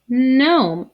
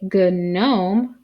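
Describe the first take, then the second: First: The word starts straight with the N sound. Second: A hard G sound is said before the N. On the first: The speaker calls it right. "we say gnome. The G is silent" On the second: The speaker calls it wrong. "We don't say gnome"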